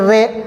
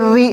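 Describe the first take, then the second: First: The vowel sounds like 'ay', as in 're'. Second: The vowel sounds like 'ee', as in 'ri'. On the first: The speaker calls it wrong. "पहले पढ़ते थे रा ज़ेर रे ... तो इस तरह नहीं पढ़ना है" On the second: The speaker calls it right. "ज़ेर को मारूफ पढ़ेंगे"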